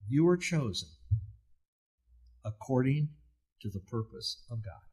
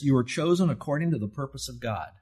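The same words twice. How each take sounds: First: It is said slowly. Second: It is said fast.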